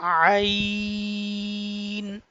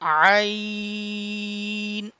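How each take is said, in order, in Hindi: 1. शुरुआती आवाज़ आराम से खिंचती है। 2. शुरुआती आवाज़ आराम से खिंचती है।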